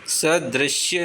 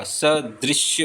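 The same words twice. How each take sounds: First: सदृश्य said slowly as "sa-drashya"; wrong vowel. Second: सदृश्य said slowly as "sa-drishya"; correct vowel. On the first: Teacher showing the mistake, सदृश्य with open vowel after dr. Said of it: "सदृश्य नहीं होता". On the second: Teacher giving the correction, सदृश्य with short "dri". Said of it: "सदृश्य होता है". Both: Shown as a demonstration.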